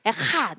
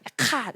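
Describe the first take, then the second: First: The middle consonant is a soft breathy h. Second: The middle consonant is a harder k-like sound. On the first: "하이트는 흐에 더 가깝습니다" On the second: "카프의 흐는 좀 더 키읔에 가깝고요"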